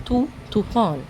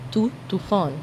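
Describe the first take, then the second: No difference in how they are said.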